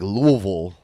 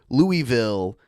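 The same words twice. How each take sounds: First: It is pronounced the way local residents say it. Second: It is pronounced the way outsiders say it. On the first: The speaker lives in the city. The speaker calls it right. "the people that live there, they're like Louisville. That's how you say it" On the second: The speaker is not from the city. The speaker calls it wrong. "when they say it wrong"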